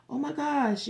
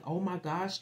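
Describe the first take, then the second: First: "Oh my gosh" thrown up high and louder; mock gushing. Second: Said in the usual way. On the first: Mimicking someone's excited reaction, high and louder. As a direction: gush like an overexcited friend.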